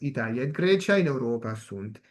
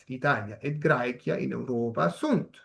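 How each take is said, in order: First: It is read in Italian-style church Latin pronunciation. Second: It is read in restored classical Latin pronunciation. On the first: "ahora lo voy a leer en la eclesiástica, o sea, la italiana" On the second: "esto en pronunciación restituta"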